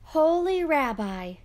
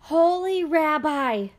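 First: High, louder grateful call; joyful cry. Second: High, loud, slow desperate cry; shrieking plea. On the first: Poor man returning to thank the rabbi, joyful. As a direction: burst in overflowing with thanks. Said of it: "he cried". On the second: Poor man bursting in on the rabbi, shrieking for help. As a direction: throw yourself at the rabbi's mercy. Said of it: "he shrieked". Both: A narrator's reading.

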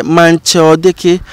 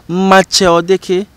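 First: "manche o deke" with n sounded in manche; dialect pronunciation. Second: "Mache o deke" with no n in Mache; Dangbe pronunciation. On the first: Teacher contrasting dialects, "manche" with the n. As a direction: say "manche" as MAN-che, then "o deke". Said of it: "So instead of manche". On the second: Teacher contrasting dialects, "Mache" without the n. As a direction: say "Mache" as MA-che, then "o deke". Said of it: "Then the Dangbes will say". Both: Shown as a demonstration.

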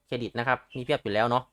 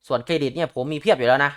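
First: เครดิต repeated softer, a quiet tossed-off afterthought; softer aside. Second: Said in the usual way. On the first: Real, not acted. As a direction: drop to an aside. Repeats the credit line twice. (ทวนเบาๆ แบบพูดแทรก)

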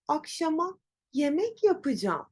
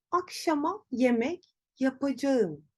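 First: "yapacağım" shortened to "yapıcam"; relaxed everyday "Akşama yemek yapacağım" with "yapacağım" as "yapıcam"; natural spoken form. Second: "yapacağım" said in full as written, ya-pa-ca-ğım; wrong written-style pronunciation. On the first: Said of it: "Ama telaffuz ederken, konuşurken". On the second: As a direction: stiff bookish "Akşama yemek yapacağım" with every syllable of "yapacağım". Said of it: "Yanlış bir kullanım". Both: Shown as a demonstration.

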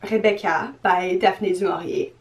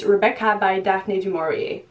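First: "Rebecca by Daphne du Maurier" said the French way, "Rebecca" as "Rébéka" and "du Maurier" as "du Morié"; French pronunciation. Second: "Rebecca by Daphne du Maurier" in a clumsy English accent, "Daphne du Maurier" said like "Dafny doo Morry"; butchered English accent. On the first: Shown as a demonstration. Booktuber correcting her own botched title in French pronunciation. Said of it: "There you go". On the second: Real, not acted. Booktuber naming her next read in a butchered English accent. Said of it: "the worst butchered English accent ever".

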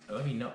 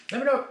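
First: Softer "let me know" at usual pitch; video sign-off. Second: Very high, sing-out "let me know"; video sign-off. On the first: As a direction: drop it back down, much quieter. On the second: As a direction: pitch it way up like signing off a video. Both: Real, not acted. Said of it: "talking like it's the end".

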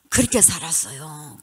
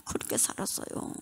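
First: Said in the usual way. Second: A soft, breathless whisper repeating "그렇게 살았어요"; a resigned, whispered "그렇게 살았어요"; whispered echo. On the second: Real, not acted.

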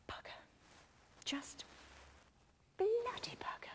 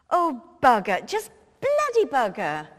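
First: Hushed curse breathed off the phone; whispered curse. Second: Louder cursing blurted out in exasperation; frustrated curse. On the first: Mo cursing under her breath while Mister Adams is on hold, whispered curse. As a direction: whisper the swear so the caller can't hear. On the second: Mo swearing after Tony refuses to come as Dolly, loud exasperated curse. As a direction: bark the curse like the plan just collapsed. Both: Acted.

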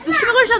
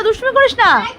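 First: Said in the usual way. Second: Higher, sharper second warning; sharper scolding. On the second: Shown as a demonstration. Mother warns naughty son again, higher and sharper. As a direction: push the repeat up into a real telling-off. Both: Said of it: "repeated scolding to child".

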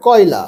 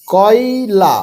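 First: কয়লা run together in one go; quick reading. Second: কয়লা stretched syllable by syllable; slow, broken reading. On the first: Teacher telling pupils to read faster, said quickly. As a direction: say কয়লা quickly, syllables joined. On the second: Teacher showing beginners the first step, read slowly. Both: Shown as a demonstration. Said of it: "তাহলে এবার তাড়াতাড়ি পড়ো".

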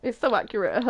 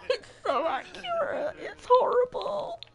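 First: Said in the usual way. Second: High, squeaky laugh-crying through the words. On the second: Real, not acted. Player cracking up at her sad sim, high laugh-crying. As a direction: laugh so hard it nearly turns to tears.

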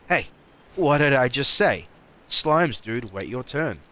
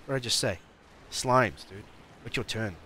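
First: Loud, high-pitched playful telling-off; mock scolding shout. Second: Playful telling-off at moderate volume; mock scolding. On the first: Player scolds slimes to wait their turn, loud mock scolding. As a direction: repeat it louder, as if they ignored you. Repeats the scolding, far louder. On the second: Player tells slimes to wait their turn, mock scolding. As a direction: remind them firmly, in play.

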